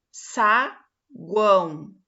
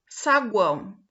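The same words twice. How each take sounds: First: Saguão drawn out very slowly and loud, stressing the A; very slow stretched demo. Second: Saguão said clearly and firmly, stressing the A; clear demo word. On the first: Teacher stretching Saguão slowly for students. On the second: Teacher saying Saguão for students. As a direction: say Saguão so the A stands out. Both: Shown as a demonstration. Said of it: "o que mais se destaca é o A".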